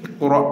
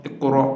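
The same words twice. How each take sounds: No difference in how they are said.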